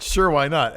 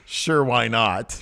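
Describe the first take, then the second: First: Brisk sure why not; quicker quote. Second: Slow, drawn-out sure why not; lazy shrug of a line; slow deadpan quote. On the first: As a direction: toss it off lightly. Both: Retold or imitated. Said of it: "he does this again with his hands".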